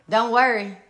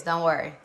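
First: Louder, firm don't worry; firm reassurance. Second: Lower, softer Don't worry; soft reassurance. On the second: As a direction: say Don't worry gently, meaning it. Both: Shown as a demonstration. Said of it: "I'm serious".

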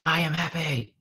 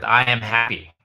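First: Put-on higher-pitched child's echo; lightly voiced small child; imitating his young daughter. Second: Said in the usual way. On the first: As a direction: echo it back as a little girl would. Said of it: "And she goes". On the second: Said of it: "we always start with".

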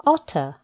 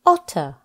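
Both takes have the same delivery.

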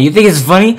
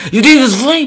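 First: "You think it's funny?" loud and higher, rising; annoyed. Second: "You think it's funny?" much higher, shrieking, rising at the end; furious shriek. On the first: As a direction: scold the laughing viewers. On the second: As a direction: blow up completely, voice shooting up. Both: Real, not acted. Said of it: "I just lost my temper".

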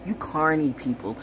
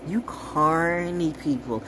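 First: Said in the usual way. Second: "You carny people" stretched slow, each word drawn out. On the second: Shown as a demonstration. Warning viewers about carny people, slow and drawn out. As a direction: drag it out with contempt. Repeats phrase, second drawn out.

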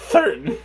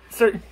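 First: "certain" said as "thertain", th for s; tongue through the teeth on "certain"; "certain" with a th lisp. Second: Said in the usual way. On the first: Real, not acted. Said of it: "It's like T H". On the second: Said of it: "There we go".

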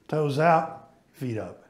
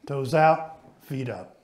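No difference in how they are said.

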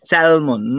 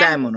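First: স্যালমন with the L pronounced; wrong, sounded L. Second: স্যামন said with no L; teacher's model স্যামন, L silent. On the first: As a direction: sound the L, SAL-mon for স্যালমন. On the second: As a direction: drop the L, SAM-un for স্যামন. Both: Shown as a demonstration. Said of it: "not স্যালমন".

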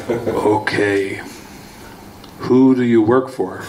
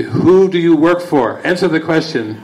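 First: Low, even question from a captor; calm interrogator. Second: Higher, pushier demand from a captor; demanding interrogator. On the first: Captors quiz Bill Murray under truth serum, lower and calm. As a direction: ask it coolly, like a patient interrogator. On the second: Captors press the drugged hero for answers, higher and insistent. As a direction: press him hard for the answer. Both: Retold or imitated.

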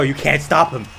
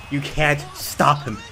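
First: Said in the usual way. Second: "can't" stretched, then a beat before "stop"; slow emphatic repeat. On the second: Real, not acted. Viewer stressing he is unstoppable, slow emphasis on "can't". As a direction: spell it out slowly, leaning on "can't".

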